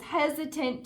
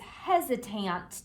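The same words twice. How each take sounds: First: The last syllable has a reduced schwa vowel. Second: The last syllable has a full vowel sound. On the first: The speaker calls it right. "That sounded much better" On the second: The speaker calls it wrong. "I forgot to use the schwa sound"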